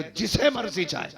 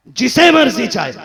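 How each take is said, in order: First: Said in the usual way. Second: Booming repeat. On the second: Acted. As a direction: ring out the repeat much louder and higher. God's decree repeated for force.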